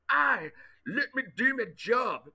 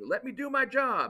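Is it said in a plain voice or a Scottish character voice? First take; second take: Scottish voice; plain voice. First: It is said in Groundskeeper Willie's Scottish voice. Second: It is said in his own plain voice.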